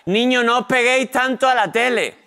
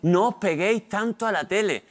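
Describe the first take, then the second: First: High, louder motherly scolding; imitating mum calling out a warning; nagging mother. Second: Lightly voiced nagging mum; nagging mother. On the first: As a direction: scold the kids like a fed-up mum. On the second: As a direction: imitate a mother repeating her scolding. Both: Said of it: "La frase que más decía mi madre".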